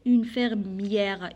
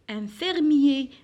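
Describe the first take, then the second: First: "une fermière" said very slowly, stretching the open è before the r; feminine form shown. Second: "Un fermier" said slowly and louder, ending on a closed é; masculine form shown. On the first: Teacher models "une fermière" for pupils, very slowly. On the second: Teacher models "Un fermier" for pupils, slow and loud. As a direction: spell out "fermier" slowly for the class with a crisp é ending. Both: Shown as a demonstration. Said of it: "I E R E plus l'accent grave".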